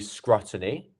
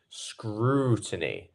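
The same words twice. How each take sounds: First: The oo vowel is short. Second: The oo vowel is lengthened. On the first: The speaker calls it wrong. "It's not going to be" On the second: The speaker calls it right. "It becomes a lengthened sound"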